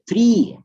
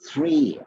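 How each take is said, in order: First: It is said with a colloquial local pronunciation. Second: It is said with the standard pronunciation.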